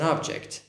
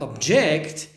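First: The stress is on the first syllable. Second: The stress is on the second syllable. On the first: It is a noun: a thing. "object means this is an object" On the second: It is a verb: to protest. "but object means protest"

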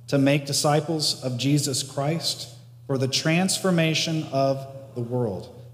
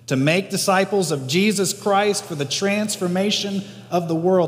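First: It is said in a plain, ordinary way. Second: It is said with strong conviction and emphasis.

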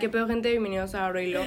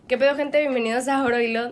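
First: It is said flatly, with little energy. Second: It is said lively, with much energy.

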